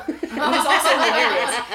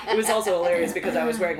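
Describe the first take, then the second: First: Higher and louder, laughing through it; real laughter breaking out. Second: Said in the usual way. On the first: Real, not acted. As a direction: crack up as you say it. Bursts out laughing retelling.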